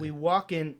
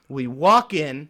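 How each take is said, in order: First: Mock sexual. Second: Loud, drawn-out New York swagger; New York macho. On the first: Storyteller trying his friend's suggestion, lightly mock-sexual. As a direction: play it sultry, half-heartedly. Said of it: "like, sexually". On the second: Pretend. Comic telling his story with macho swagger, loud New York delivery. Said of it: "like, a little New York with it".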